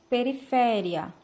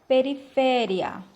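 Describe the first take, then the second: The two takes are said the same way.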